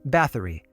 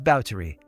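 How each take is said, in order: First: The name is said with English sounds. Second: The name is said with Hungarian sounds. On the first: The speaker calls it wrong. "you might have assumed her surname ... is pronounced Bathory" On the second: The speaker calls it right. "the proper period-correct pronunciation is Báthory"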